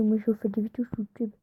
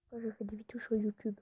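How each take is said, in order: First: Said in the usual way. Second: YouTube whisper. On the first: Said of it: "Moi, je parle comme ça quand je fais des vidéos". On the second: Shown as a demonstration. Vlogger showing viewers her YouTube voice, whispering. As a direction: whisper it, no voice at all. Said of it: "En gros, je parle comme ça".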